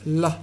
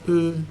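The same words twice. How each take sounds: First: "la" with a clear, light L. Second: "l" as a held dark L. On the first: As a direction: say "la", tongue tip forward for a light L. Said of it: "light L". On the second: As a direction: say "l" alone with the tongue back, a dark L. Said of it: "dark L". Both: Shown as a demonstration.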